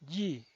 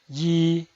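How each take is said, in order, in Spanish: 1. El tono cae de alto a bajo. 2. El tono se mantiene alto y plano. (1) "El cuarto tono es un tono bajado" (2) "El primer tono es alto y sostenido"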